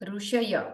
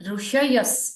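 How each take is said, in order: First: The word ends on a vowel, no 's' sound. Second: The word ends with a short 's' sound.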